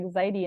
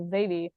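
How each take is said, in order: First: Zaidi with a D sound in the middle; Spanish pronunciation, V as D. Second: Zaidi said the English way, as Zay-vee; English pronunciation. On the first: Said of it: "will pronounce the V like a D". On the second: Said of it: "and in English, it's usually pronounced as". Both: Shown as a demonstration.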